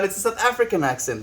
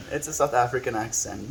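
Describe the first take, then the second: First: Pitched well up, animated reply; high, emphatic answer to the chat; high-pitched exclamation. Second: Said in the usual way. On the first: Real, not acted. Answers chat question about accent.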